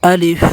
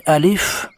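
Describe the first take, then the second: First: Alef said the wrong way. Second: "الف" said the right way; correct alef. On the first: Teacher demonstrating the common error: "الف" mispronounced. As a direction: say "الف" as the common mistake, not the correct form. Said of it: "اس کو الف نہیں پڑھنا". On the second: Teacher giving the correct form: "الف" said properly. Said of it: "صحیح لفظ ہے". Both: Shown as a demonstration.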